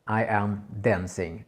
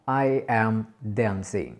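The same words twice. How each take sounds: No difference in how they are said.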